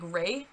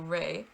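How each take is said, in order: First: The vowel glides into a Y sound. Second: The vowel stays pure with no glide. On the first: The speaker calls it wrong. "I was adding like a Y onto the end of it" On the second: The speaker calls it right. "the pure syllable"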